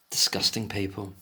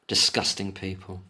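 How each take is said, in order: Both takes have the same delivery.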